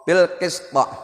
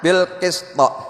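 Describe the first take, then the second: No difference in how they are said.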